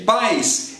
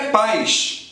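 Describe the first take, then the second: First: The final consonant sounds like 's'. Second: The final consonant sounds like 'sh', Carioca style.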